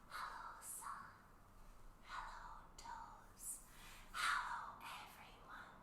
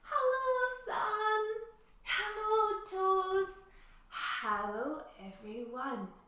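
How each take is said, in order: First: It is said in a tiny, quiet voice. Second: It is said in a normal, full voice.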